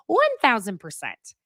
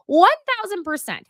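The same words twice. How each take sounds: First: Said in the usual way. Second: Much higher, punchy emphatic answer. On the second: Real, not acted. Host answering her own question, emphatic and high. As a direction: slam the first take home, high and loud.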